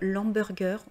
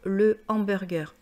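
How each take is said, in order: First: The article is shortened and joined to the noun. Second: The article is said fully before the noun. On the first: The speaker calls it wrong. "on ne peut pas dire l'hamburger" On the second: The speaker calls it right. "on doit dire le hamburger"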